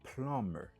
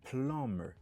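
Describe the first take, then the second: Both takes have the same delivery.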